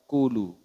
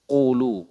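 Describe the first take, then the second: First: The first consonant is a plain front k. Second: The first consonant is a deep back q. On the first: The speaker calls it wrong. "Kalau kaf" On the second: The speaker calls it right. "Huruf qaf ini lebih naik dibanding huruf kaf"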